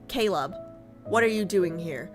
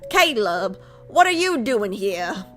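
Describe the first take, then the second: First: It is said in a neutral accent. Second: It is said in a Southern accent.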